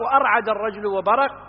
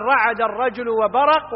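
First: وأرعد with a glottal a- before the R; form with hamza. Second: رعد starting straight on RA; form without hamza. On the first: (نطق وأرعد بهمزة قبل الراء) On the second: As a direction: say رعد with no leading a-. (نطق رعد بلا همزة في أولها) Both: Shown as a demonstration. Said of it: "يجوز أن يقال".

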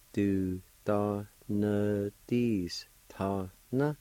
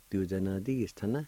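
First: Du da na dis ta na drawn out very slowly; slow model for learners. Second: Said in the usual way. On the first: Shown as a demonstration. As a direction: stretch every syllable. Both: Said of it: "is pronounced like this".

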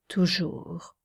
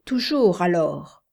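First: Toujours breathed in a whisper; whispered echo. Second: Said in the usual way. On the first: A narrator's reading. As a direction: let toujours fade to a whisper. Whispered repeat. (toujours chuchoté dans un souffle)

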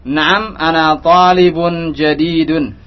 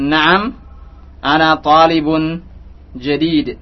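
First: Slow, with "jadidun" fully voweled and ending in -un; full case ending. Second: "jadid" ends on a bare d, no vowel after it; pausal ending dropped. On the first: Ustaz has students practise reading the final harakat, "jadidun". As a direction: sound out the -un of "jadidun" slowly. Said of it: "beri harokat agar dari sekarang kita". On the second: Ustaz demonstrates spoken pause form, "jadid" with no final vowel. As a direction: stop dead on the d of "jadid". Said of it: "huruf terakhir tidak dibaca sebenarnya". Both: Shown as a demonstration.

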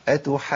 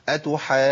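First: Unforced doubled jim in "أتحاجون"; gentle doubled jim. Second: "أتحاجون" with a hard push into the jim; over-pressed jim after long madd in "أتحاجون"; wrong forceful stress. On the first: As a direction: glide from long madd into jim in "أتحاجون". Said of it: "بص انا بدخل ازاي برفق". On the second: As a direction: punch the doubled jim in "أتحاجون". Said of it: "قوة في الدفع كده". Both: Shown as a demonstration.

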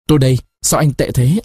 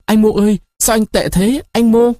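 First: Said in the usual way. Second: Tearful call. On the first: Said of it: "phát khóc". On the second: A narrator's reading. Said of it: "Người nhân tình phát khóc".

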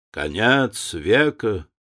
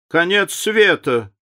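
First: Slow, offhand remark; dropped casually. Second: Higher, livelier echo of the phrase; picking it up. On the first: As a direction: let it fall lazily, slowly. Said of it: "проронил лорд Генри". (лениво и медленно обронить) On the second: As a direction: catch the phrase and top it, brightly. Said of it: "подхватила леди Нарборо". (подхватить выше и живее) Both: A narrator's reading.

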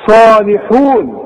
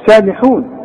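First: صالحون slowly, with a thick, heavy ص; emphatic saad. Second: سالحون with a plain thin س, the mistake; wrong thin seen. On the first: Teacher models the correct emphatic ص in recitation. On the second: Teacher shows students the wrong thin س. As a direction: show the wrong light س in سالحون. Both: Shown as a demonstration. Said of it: "ما تقولش سالحون".

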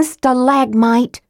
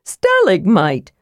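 First: "stalagmite" slowly as stuh-LAG-mite; corrected pronunciation. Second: "Stalagmite" slowly as STAL-ig-mite; mispronounced word. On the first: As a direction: stress the second syllable of "stalagmite". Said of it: "Tika was so mad". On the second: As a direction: stress the first syllable of "Stalagmite". Kender repeats his mispronunciation. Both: A narrator's reading.

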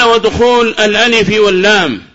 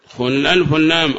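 First: High, loud formal text reading; reciting the text. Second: Said in the usual way. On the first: Shown as a demonstration. Teacher quoting the next sign from the text, formal recitation. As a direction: read the primer line out in a raised voice.

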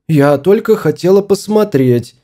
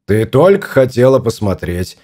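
First: Higher-pitched, protesting woman's voice; defensive wife. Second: Mocking echo. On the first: Wife excusing herself to her annoyed husband, higher and defensive. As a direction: plead innocence in a raised pitch. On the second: Husband mimicking his wife's excuse, mildly mocking. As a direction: parrot her excuse back at her. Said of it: "передразнил он". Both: A narrator's reading.

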